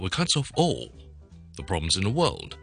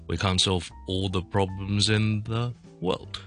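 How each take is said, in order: First: The pitch on 'all' moves instead of staying level. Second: The pitch on 'all' stays level and flat. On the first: The speaker calls it wrong. "如果呢度都用返个all 有返呢个声调转变就会好怪㗎" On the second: The speaker calls it right. "我呢个all 呢继续平调落去"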